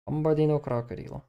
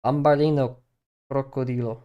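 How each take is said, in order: First: "Bambarino crocodilo" again, lightly sung-out mock Italian; Italian-ish meme name. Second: "Bambarino crocodilo" rolled out with a mock Italian lilt; Italian-ish meme name. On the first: Streamer repeating the meme name her way, mock Italian singsong. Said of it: "my brain just reads it like that". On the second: Streamer showing how she reads the meme name, mock Italian lilt. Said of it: "the way I say it in my head". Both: Shown as a demonstration.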